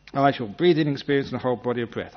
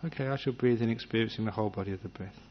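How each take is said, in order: First: Pushy, louder self-command to breathe in; control freak. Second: Soft, quiet suggestion to yourself; gentle resolution. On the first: Meditator nagging himself, a pushy control-freak command. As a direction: nag yourself like an impatient boss. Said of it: "Control freak means that you keep interrupting". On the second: Meditator setting a gentle intention, softly. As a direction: say it once, softly, then let go. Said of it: "you may even make a resolution". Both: Retold or imitated.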